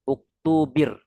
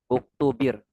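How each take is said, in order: Both takes have the same delivery.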